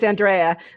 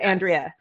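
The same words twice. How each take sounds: First: The middle syllable sounds like the nickname Dre. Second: The middle syllable does not sound like Dre. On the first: The speaker calls it right. "if you go by Dre, then it's Andrea" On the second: The speaker calls it wrong. "instead of Andrea"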